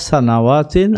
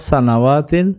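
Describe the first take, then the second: Both takes have the same delivery.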